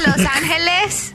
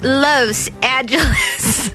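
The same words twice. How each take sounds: First: It is pronounced the Spanish way. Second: It is pronounced the American English way. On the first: This is the original form of the name. "the word is in Spanish. So it's actually Los Angeles" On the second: This is the adapted local form of the name. "we're making it American"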